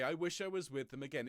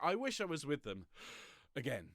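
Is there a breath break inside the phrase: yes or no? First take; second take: no; yes. First: The phrase flows without any breath break. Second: A breath breaks the phrase after wish. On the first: The speaker calls it right. "You'd say" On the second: The speaker calls it wrong. "you wouldn't say that to your friends, would you?"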